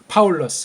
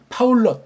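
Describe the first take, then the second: First: The word ends in a soft, released s. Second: The word ends in a clipped, stopped consonant. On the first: The speaker calls it right. "스를 부드럽게 해줘야 되겠죠" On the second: The speaker calls it wrong. "이걸 시옷 받침하면 안 돼... 그렇게 발음하는 건 틀린 발음이야"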